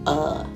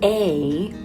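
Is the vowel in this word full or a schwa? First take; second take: schwa; full. First: The word is a reduced schwa. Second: The word is a full vowel. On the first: "will say uh" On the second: "or instead of a"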